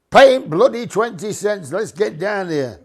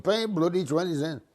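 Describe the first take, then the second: First: High, loud impatient yell; crowd shouting. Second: Mild mock shout. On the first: Retold or imitated. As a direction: shout it like a fed-up busload. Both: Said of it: "they're all shouting".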